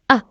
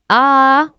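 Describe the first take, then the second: First: The vowel is short and quick. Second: The vowel is long and stretched. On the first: The speaker calls it wrong. "not short a" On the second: The speaker calls it right. "It's a"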